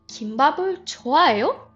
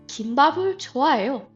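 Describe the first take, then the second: First: The pitch rises at the end. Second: The pitch falls at the end. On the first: It asks whether the listener likes kimbap. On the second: It states that the speaker likes kimbap.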